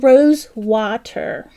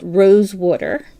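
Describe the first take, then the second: First: "Water" said as "wah-ter", without the Jersey "wooder"; careful standard pronunciation. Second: South Jersey pronunciation of "Rose Water"; Jersey accent. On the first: Shown as a demonstration. Crafter correcting her Jersey slip for viewers, careful standard "Water". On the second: Real, not acted. Crafter naming her yarn shade live, Jersey accent slipping out. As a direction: say "Water" as "wooder", Jersey style. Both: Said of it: "that's my Jersey accent coming out".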